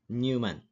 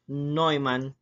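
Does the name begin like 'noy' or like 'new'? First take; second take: new; noy. First: The name begins with a 'new' sound. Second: The name begins with a 'noy' sound. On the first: The speaker calls it wrong. "not Newman" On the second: The speaker calls it right. "this one here is pronounced as Neumann"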